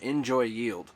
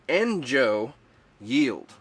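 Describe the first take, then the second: First: The first word ends with an extra 'y' glide. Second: The first word ends on a plain vowel. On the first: The speaker calls it wrong. "I want to call them Enjoy Yield, but there's not two Y's" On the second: The speaker calls it right. "It's Enjo Yield"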